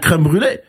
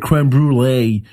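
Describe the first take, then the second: First: The phrase is said with a French pronunciation. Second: The phrase is said with an English pronunciation. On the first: The speaker calls it right. "I'm going to say" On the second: The speaker calls it wrong. "I'm not going to say"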